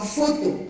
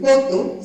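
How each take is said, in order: First: The word starts with an f sound. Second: The word starts with a p sound. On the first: The speaker calls it right. "sino foto" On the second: The speaker calls it wrong. "No van a decir poto"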